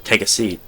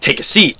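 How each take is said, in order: First: It is said very faintly and quietly. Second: It is said louder and more forcefully.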